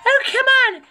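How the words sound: It is said in a put-on character voice.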